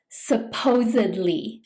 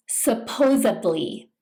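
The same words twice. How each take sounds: First: "supposedly" with a clear d, "suppose-ed-ly"; "supposedly" with a d sound; correct pronunciation. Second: "supposedly" with a b sound, "suppose-ably"; "supposedly" wrongly with a b; mispronounced supposedly. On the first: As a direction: say "supposedly" with a d before "ly". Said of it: "with a D sound". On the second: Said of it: "mispronounce this by saying". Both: Shown as a demonstration.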